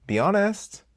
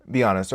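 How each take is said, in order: First: Raised-pitch challenge; higher, pushing. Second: Said in the usual way. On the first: Shown as a demonstration. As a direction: press them for the truth.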